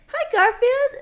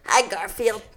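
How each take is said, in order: First: It is said in a cute, girlish voice. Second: It is said in an annoying, bratty voice.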